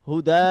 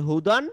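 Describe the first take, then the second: First: The word ends with a long drawn-out vowel. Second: The word ends with a short vowel plus n. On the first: The reader stops at this word. "যদি থেমে যাই তাহলে কি হবে?" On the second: The reader continues without stopping. "যেমন আছে হুদান"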